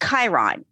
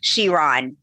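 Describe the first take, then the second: First: The name begins with a hard 'k' sound. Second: The name begins with a soft 'sh' sound. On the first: It names the minor planet. "as if the C CH was a K" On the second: It names the car. "Chiron is a correct pronunciation for the Bugatti Chiron"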